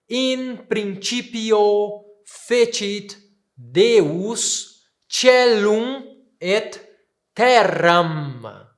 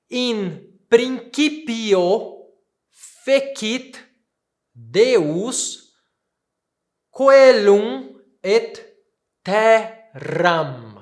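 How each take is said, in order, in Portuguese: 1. O c em principio tem som suave. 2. O c em principio tem som duro, como k. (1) "A pronúncia que eu estou utilizando é a pronúncia eclesiástica" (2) "Se eu fosse pronunciar na pronúncia reconstituída"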